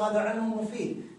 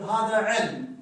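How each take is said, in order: First: علم said "ilmun", running quickly into مفيد; connected form with tanween. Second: علم ends on a bare m; pausal form without tanween. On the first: Teacher recalls the joined example, tanween pronounced. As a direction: link علم to مفيد with an -un ending. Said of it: "قلنا في حالة الوصل". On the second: Teacher contrasts the stopped reading, tanween dropped. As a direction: stop on علم with no -un. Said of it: "في حالة الوقف نقول". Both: Shown as a demonstration.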